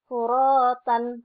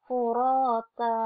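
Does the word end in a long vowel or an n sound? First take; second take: n sound; long vowel. First: The word ends with a short vowel and n. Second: The word ends with a lengthened vowel, no n. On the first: The speaker calls it wrong. "tidak tidak dibaca furotan" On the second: The speaker calls it right. "tapi furota"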